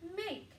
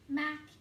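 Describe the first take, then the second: First: The vowel is long, like in 'make'. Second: The vowel is short, like in 'mac'. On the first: The speaker calls it right. "So let's try the long one" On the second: The speaker calls it wrong. "I'm going to try the short vowel sound"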